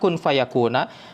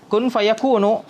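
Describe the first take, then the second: First: The last word ends with an 'a' vowel. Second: The last word ends with a 'u' vowel. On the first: The second event results from the first command. "Kalau dibaca eh, mansub fayakuna" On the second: The second clause is a new, independent sentence. "Dengan e, marfu"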